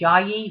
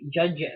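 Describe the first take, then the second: First: The name starts with a Y sound. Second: The name starts with a J sound. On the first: "Pam was telling me it's Yayi" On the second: "like with a J sound or something"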